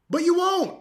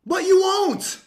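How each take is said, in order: First: Taunting shout. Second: Even higher and louder, hitting "you"; louder taunt. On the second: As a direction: top the first one, lean hard on "you". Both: Real, not acted. Taunting repeated challenge.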